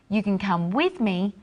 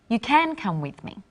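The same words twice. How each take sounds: First: The stress is on "you". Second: The stress is on "can".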